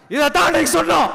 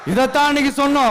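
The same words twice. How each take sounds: First: First take shouted out; emphatic shout. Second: Said in the usual way. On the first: Real, not acted. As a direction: hammer the point home. Repeats slogan, first take shouted.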